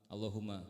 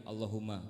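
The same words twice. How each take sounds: No difference in how they are said.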